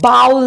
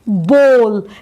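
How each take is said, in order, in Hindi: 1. स्वर 'cow' में 'ow' जैसा सुनाई देता है। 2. स्वर 'go' में 'oh' जैसा सुनाई देता है। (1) "बाउल नहीं। ज्यादातर लोग इसे बाउल बोल के गलत बोलते हैं।" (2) "ध्यान रखिए इसे बोल बोलते हैं"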